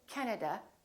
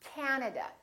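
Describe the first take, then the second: First: The first vowel is short. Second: The first vowel is long. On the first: The speaker calls it wrong. "don't say" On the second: The speaker calls it right. "this a is really long"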